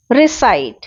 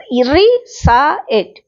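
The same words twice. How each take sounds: First: Said in the usual way. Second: recite broken very slowly into री, सा, इट; syllable by syllable. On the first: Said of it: "ये जो है टुकड़ा". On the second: Shown as a demonstration. Teacher showing students what a syllable is, recite split into slow syllables. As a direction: say recite in separate drawn-out pieces, री - सा - इट. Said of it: "ये syllable कहलाता है".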